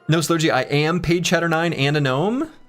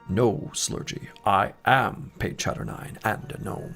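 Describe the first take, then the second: First: It is said in a normal speaking voice. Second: It is said in a deep, put-on villain voice.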